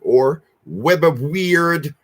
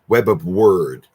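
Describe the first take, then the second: First: The last word sounds like 'weird'. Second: The last word sounds like 'word'. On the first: "I like to say it that way" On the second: "to be correct, paganly correct"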